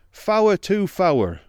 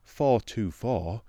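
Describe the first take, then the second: First: Four is said the broad dialect way. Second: Four is said the standard English way. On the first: "but "Fower to fower,"" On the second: "Not "for to for,""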